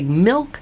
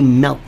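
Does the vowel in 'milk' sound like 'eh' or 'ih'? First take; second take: ih; eh. First: The vowel sounds like 'ih' as in 'bit'. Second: The vowel sounds like 'eh' as in 'bet'. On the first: "They say milk" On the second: "some say milk, M-E-L-K"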